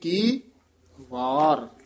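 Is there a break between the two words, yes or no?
yes. The second word is set apart with a break. The speaker calls it right. "ਵਾਰ ਨਖੇਰ ਕੇ ਪੜ੍ਹਨਾ"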